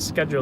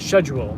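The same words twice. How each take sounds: First: It is not said the British English way. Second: It is said the British English way. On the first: "They don't say schedule" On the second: "they say um, schedule, right?"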